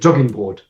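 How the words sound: Jogging is pronounced the German way. "But the Germans they don't. They say jogging board"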